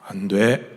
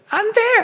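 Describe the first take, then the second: First: It is said in a low, deep voice. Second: It is said in a high voice. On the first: The speaker calls it right. "안 돼 이렇게 하지" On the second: The speaker calls it wrong. "안 돼 이렇게 하나요?"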